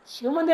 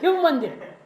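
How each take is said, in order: First: The first word begins with an sh sound. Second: The first word begins with an h sound. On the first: "शिव मंदिर नहीं" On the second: "शाह को हा बोलते हो"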